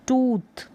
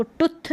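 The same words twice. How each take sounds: First: टूथ with a drawn-out oo; long oo. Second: टुथ with a short clipped u; wrong short vowel. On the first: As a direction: hold the oo in टूथ longer. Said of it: "टुथ ना पढ़कर टूथ". (सही उच्चारण टूथ, लंबा ऊ) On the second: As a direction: say टुथ quickly, the u kept short. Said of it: "इसको टुथ नहीं पढ़ेंगे". (गलत उच्चारण टुथ, छोटा उ) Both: Shown as a demonstration.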